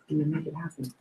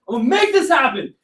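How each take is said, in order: First: It is said with low, flat energy. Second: It is said with loud, high energy.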